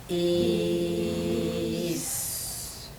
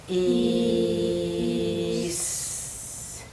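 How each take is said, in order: No difference in how they are said.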